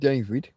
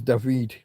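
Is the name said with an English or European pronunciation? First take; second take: English; European. First: The name is said with an English pronunciation. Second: The name is said with a European pronunciation. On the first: "There's the English way with David" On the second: "which that's me trying to be European"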